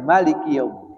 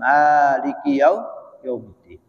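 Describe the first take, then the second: First: The first vowel of Maliki is kept short. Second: The first vowel of Maliki is drawn out long. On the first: "mimnya enggak dipanjang" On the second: "itu dipanjangkan"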